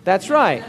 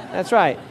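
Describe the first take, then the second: No difference in how they are said.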